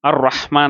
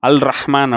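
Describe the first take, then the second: First: The article's L merges into the following R. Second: The article's L is pronounced clearly before R. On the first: The speaker calls it right. "போட்டிருக்கு" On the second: The speaker calls it wrong. "யாருமே அல் ரஹ்மான் அப்படின்னு சொல்றதில்ல"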